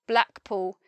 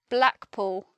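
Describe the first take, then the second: Both takes have the same delivery.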